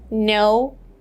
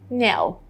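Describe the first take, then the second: First: It is said with an American vowel. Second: It is said with a British vowel. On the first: "American version" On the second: "British version"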